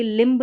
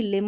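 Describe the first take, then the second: First: लिम्ब with the final b wrongly sounded; mispronounced लिम्ब. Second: लिम ending on m, no b; silent b. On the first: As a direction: voice the b ending लिम्ब. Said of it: "लिम होता है". (लिम्ब में ब बोलकर ग़लत उच्चारण) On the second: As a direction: close लिम on the m. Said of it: "ये लिम्ब नहीं". (लिम, बिना ब के) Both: Shown as a demonstration.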